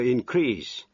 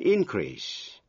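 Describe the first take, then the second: First: The stress is on the second syllable. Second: The stress is on the first syllable. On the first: It is a verb meaning to grow larger. "Những động từ có hai vần thì thường nhấn vào vần nhì" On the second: It is a noun meaning a rise. "khi là danh từ thì nhấn mạnh vần nhất"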